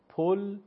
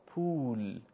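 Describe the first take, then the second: First: پل with a short o, as pol; short Persian o. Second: پول with a long drawn u, as puul; long u vowel. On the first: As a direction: say پل short and higher, vowel o. (پل با ضمهٔ کوتاه فارسی) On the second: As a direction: stretch the u in پول. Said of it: "واو مدی رو تلفظ بکنیم". (پول با واو مدی کشیده) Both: Shown as a demonstration.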